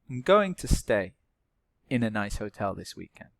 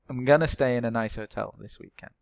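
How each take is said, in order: First: 'Going to' is said in full as two words. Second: 'Going to' is reduced to the short form 'gonna'.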